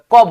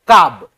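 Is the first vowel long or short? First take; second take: short; long. First: The vowel is a short a sound. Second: The vowel is a long aa sound. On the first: The speaker calls it right. "कब होता है" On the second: The speaker calls it wrong. "अटपटी नहीं लग रहा है आपको?"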